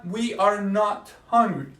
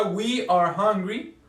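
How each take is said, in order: First: "not" set slowly between "are" and "hungry"; slow model sentence, not stressed. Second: Said in the usual way. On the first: Shown as a demonstration. Teacher contrasting negative with affirmative for class. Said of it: "Oración negativa". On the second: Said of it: "Oración afirmativa".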